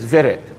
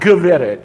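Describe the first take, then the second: First: The word begins with a v sound. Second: The word begins with a g sound. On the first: The speaker calls it right. "it's Veret. Okay, the G is kind of silent" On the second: The speaker calls it wrong. "the word Veret or lady is not Gveret"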